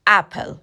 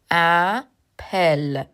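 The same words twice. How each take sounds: First: Said in the usual way. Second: اپل drawn out in two separate parts, "a... pel"; very slow teaching pronunciation of اپل, broken in two; syllable by syllable. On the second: Shown as a demonstration. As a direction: split اپل slowly, pausing between "a" and "pel". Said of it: "طرز تلفظش رو".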